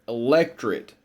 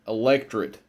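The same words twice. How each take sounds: No difference in how they are said.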